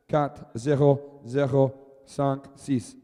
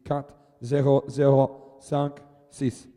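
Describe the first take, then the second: First: Slow French, Quatre zero zero cinq six; French numbers. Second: Slow French, Quatre zero zero cinq six repeated; French numbers again. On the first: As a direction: read the score out slowly in French. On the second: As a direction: read it again slowly in French. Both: Shown as a demonstration. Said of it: "scores repeated in French".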